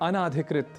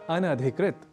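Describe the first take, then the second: First: A long 'aa' vowel comes before 'dhikrit'. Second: The vowel before 'dhikrit' is short. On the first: The speaker calls it wrong. "तो इस तरह से कुछ अशुद्धियां होती हैं" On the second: The speaker calls it right. "एक शब्द है अनधिकृत"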